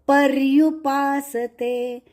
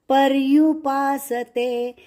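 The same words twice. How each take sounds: Both takes have the same delivery.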